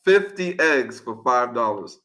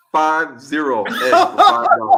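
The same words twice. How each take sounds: First: Said in the usual way. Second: FIVE ZERO spelled out slowly and louder; slow, loud stress on "Five zero"; emphatic restatement. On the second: Real, not acted. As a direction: hit "Five zero" hard, digit by digit. Spells out the number for impact.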